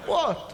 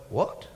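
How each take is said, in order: First: High-pitched retold "what?"; caught off guard. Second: Lower, retold stunned "what?"; blindsided. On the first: Comic answering the audience, retold high surprise. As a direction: react as if not yet knowing. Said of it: "I was genuinely blindsided". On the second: Comic hearing of his hero's death, understated shock. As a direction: let the news land, understated. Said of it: "I was genuinely blindsided, right?".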